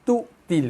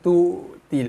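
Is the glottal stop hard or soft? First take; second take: hard; soft. First: The glottal stop is hard and solid. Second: The glottal stop is soft and weak. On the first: The speaker calls it right. "So kena bunyi dia keras" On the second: The speaker calls it wrong.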